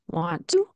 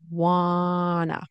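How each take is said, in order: First: Both t sounds are pronounced in full. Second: The t sounds are dropped completely. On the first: "Want to turns into wanta" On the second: "which turns into wanna"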